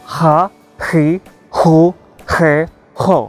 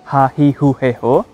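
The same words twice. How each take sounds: First: The h is harsh, with a k-like friction. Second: The h is soft and relaxed. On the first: "diucapkan seperti ada K-nya di tengah-tengahnya" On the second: "Tidak seperti kita yang H-nya diucapkan sangat santai"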